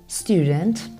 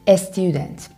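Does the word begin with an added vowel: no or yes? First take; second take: no; yes. First: The word starts directly with the s sound. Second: An e vowel comes before the s sound.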